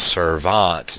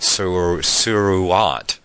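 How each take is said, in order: First: The middle sound is a v consonant. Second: The middle sound is a u vowel. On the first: The speaker calls it right. "we know that it's pronounced servant" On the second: The speaker calls it wrong. "not suruant, or however you would say suruant"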